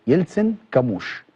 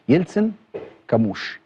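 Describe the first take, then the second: Both takes have the same delivery.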